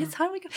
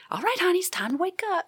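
First: High, lilting wake-up call; sweet Southern nurse again. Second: High, sugary wake-up call to a patient; sweet Southern nurse. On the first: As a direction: nurse rousing a patient from anesthesia, high and sweet. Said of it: "she told me". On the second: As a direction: coo her awake like a kind Southern nurse. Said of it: "this nice Southern woman said". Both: Retold or imitated.

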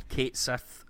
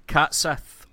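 First: "Kate Sith" with a long ay sound as in Kate, said slowly; second way to say the name, drawn out; Kate pronunciation. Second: "Cat Sith" with a short flat a as in cat; first of two ways to say the name; Cat pronunciation. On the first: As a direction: say "Kate Sith" rhyming with late. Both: Shown as a demonstration. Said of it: "however you like to pronounce it".

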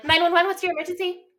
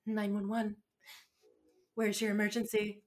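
First: High, loud dispatcher greeting; perky dispatcher demo. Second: Soft, subdued imitation of dispatcher; mildly acted, pulling herself together; tearful composure. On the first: Shown as a demonstration. Showing friends how she'd answer calls, high and brisk. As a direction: sing out the emergency greeting, high. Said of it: "You gotta be like". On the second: Dispatcher answering after a hard call, softly composed. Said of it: "she wipes her tears and she goes".

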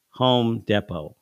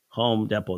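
First: Home Depot said very slowly, each word weighted; slow emphatic correction. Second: Said in the usual way. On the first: Retold or imitated. Old lady correcting her, slow and firm. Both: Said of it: "our uniforms say".

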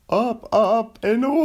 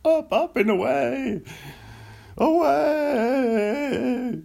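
First: High and loud heroic catchphrase; Seinfeld as Buzz Lightyear. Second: High, loud, stretched-out heroic cry in a put-on voice; Seinfeld as Buzz Lightyear. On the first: Acted. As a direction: announce it like a cartoon space hero. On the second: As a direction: belt the hero catchphrase like a sitcom comic. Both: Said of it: "my Seinfeld doing a Buzz Lightyear".

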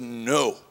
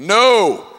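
First: A low, soft, calm no; quiet no. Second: A loud, flat, final no; loud blunt no. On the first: Retelling the pastor's answer, a low quiet no. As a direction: let the refusal drop quietly. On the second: Pastor refusing to shut down, a loud blunt no. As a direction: bark the refusal down the phone. Pastor's curt answer on phone. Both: Retold or imitated.

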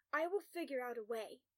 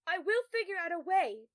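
First: Said in the usual way. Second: Loud, high, desperate call. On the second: A narrator's reading. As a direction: shout it back while being dragged away. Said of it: "Tom calls as the guards drag him".

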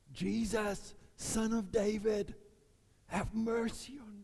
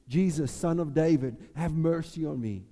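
First: High, slow begging plea; pleading cry. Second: A touch of a loud plea; calling out. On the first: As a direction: beg from far off, high and drawn out. Second take, begging. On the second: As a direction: call to Jesus, somewhat louder. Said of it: "which goes". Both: Acted.

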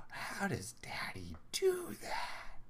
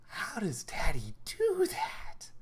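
First: Slow, high whisper full of wonder; breathy, drawn-out amazement with a lifted ending; astonished child. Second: Slow, high, breathy whisper of wonder; drawn-out whispered amazement, pitched way up; astonished child. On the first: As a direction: imitate an awestruck little girl under the breath. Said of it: "like, astonishment". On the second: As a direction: imitate an awestruck little girl, loud stage whisper. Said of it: "that kind of, like, astonishment". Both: Retold or imitated.

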